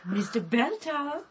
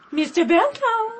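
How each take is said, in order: First: Softly testing if anyone is there; quiet, cautious questioning call; tentative call. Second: Higher, insistent questioning call; firmer call. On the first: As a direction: call out gently, rising at the end. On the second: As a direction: call out brightly for an answer. Second, firmer call into room. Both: Acted.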